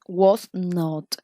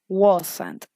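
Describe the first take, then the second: First: It is said as two separate full words. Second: It is said as one contracted word. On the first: "This is the long, uh, the long form" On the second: "In short form, we have wasn't"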